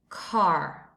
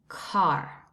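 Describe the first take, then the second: First: It is said in an American English accent. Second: The same.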